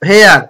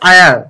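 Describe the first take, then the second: First: The word begins with an h sound. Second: The word begins with a vowel sound. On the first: The speaker calls it wrong. "এখানে হেয়ার" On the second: The speaker calls it right. "কিন্তু এখানে হবে আয়ার"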